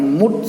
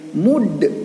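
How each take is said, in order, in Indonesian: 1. Konsonan akhir berhenti datar tanpa pantulan. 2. Konsonan akhir dilepas dengan pantulan. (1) "bukan sekedar mengucapkan mud saja" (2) "harus dipantulkan menjadi mud"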